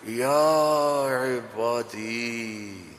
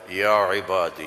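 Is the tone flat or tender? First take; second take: tender; flat. First: It is said in a warm, loving tone. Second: It is said in a flat, plain tone.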